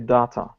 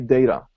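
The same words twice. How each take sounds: First: It is said with a British pronunciation. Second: It is said with an American pronunciation. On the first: "The British would say data" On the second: "Americans say data"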